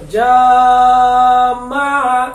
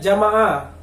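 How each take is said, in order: First: The first vowel is stretched far too long. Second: The first vowel is held too briefly. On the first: "kepanjangan juga nggak boleh" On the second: "kurang panjang"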